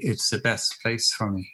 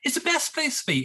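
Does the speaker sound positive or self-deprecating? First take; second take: self-deprecating; positive. First: It is said in a self-deprecating, down way. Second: It is said in a positive, upbeat way.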